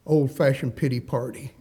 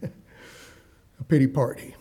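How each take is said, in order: First: Said in the usual way. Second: "A pity party" drawn out slowly with a chuckle; drawn out mockingly. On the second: Shown as a demonstration.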